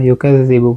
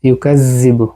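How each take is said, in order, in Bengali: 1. z ধ্বনিটি হালকা ও পাতলা করে বলা হয়। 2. z ধ্বনিটি ভারী ও জোরালো করে বলা হয়। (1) "ইউকাযযিবু বলবো, কারণ জাল জাল সা জা এগুলো হচ্ছে পাতলা" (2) "এভাবে বলবো না"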